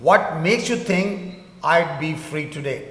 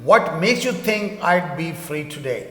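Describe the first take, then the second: The two takes are said the same way.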